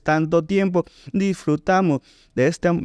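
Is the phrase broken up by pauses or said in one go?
broken up. The phrase is cut up by pauses inside it. The speaker calls it wrong. "No dices ... No la cortas"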